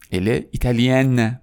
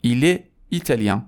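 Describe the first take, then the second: First: Slow italienne closing on a sounded N; French feminine italienne, vowel out of the nose; non-nasal ending. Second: Italien ending in a nasal vowel; French masculine italien, no final consonant. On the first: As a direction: draw out italienne onto a full n. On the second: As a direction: end italien with the n silent. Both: Shown as a demonstration. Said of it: "دومی توی بینی نیست".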